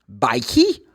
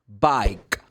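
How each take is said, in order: First: An extra vowel sound follows the final consonant. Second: The word ends on the final consonant sound. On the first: The speaker calls it wrong. "You don't say" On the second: The speaker calls it right. "The last sound is k"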